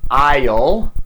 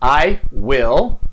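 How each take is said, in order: First: Will is shortened and joined to the pronoun. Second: Will is said as a full separate word.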